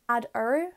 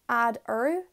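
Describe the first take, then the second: The two takes are said the same way.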